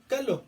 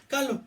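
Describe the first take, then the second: No difference in how they are said.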